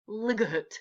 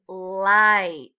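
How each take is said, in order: First: The vowel is short and the g is sounded. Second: The vowel is long and the g is silent. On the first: The speaker calls it wrong. "not ligut" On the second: The speaker calls it right. "So this word here is light"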